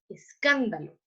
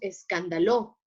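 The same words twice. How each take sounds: First: The stress falls on the second syllable. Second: The stress falls on a later syllable. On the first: The speaker calls it right. "decimos escándalo" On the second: The speaker calls it wrong. "No decimos escándalo"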